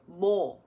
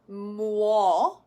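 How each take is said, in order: First: The w glide is dropped entirely. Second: The w glide is fully pronounced. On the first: This is the casual shortcut natives use. "Koreans will actually just go more" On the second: This is the standard pronunciation. "which is how you're supposed to pronounce it"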